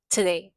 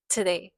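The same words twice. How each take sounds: The two takes are said the same way.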